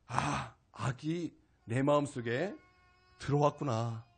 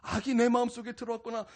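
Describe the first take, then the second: First: Slow, lower 마음속에 rising, sinking to 들어왔구나; a quiet dawning inside; hushed slow realization; slow, soft realization. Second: 내 stressed in a plain full voice; firm repeat, 내 stressed; firm restatement. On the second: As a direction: state it back firmly, leaning on 내. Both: Real, not acted. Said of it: "깊이 깨닫게 되었습니다".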